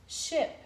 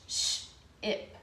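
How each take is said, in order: First: "ship" said whole, pitched up with a crisp sh; blend it. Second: "sh-ip" split, long hissed sh then ip; sound it out. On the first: Teacher blending the sounded-out word. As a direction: put "ship" back together quickly. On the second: Teacher sounding out a word for children. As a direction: break "sh-ip" into sh and ip. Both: Shown as a demonstration. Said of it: "S H".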